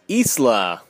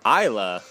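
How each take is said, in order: First: The S in the name is pronounced. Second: The S in the name is silent.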